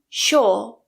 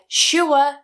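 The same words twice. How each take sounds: First: The vowel is a plain long or sound. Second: The vowel glides from oo to uh. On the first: "become sure" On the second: "words like sure"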